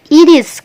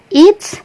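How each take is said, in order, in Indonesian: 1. Kedua kata itu diucapkan terpisah secara lengkap. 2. Kedua kata itu digabung menjadi satu suku kata. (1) "bisa dibaca it is" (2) "ini bisa dibaca it's"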